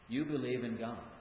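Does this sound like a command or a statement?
statement. It is said as a plain, neutral statement. It states that the listener already believes. "That is a statement of fact"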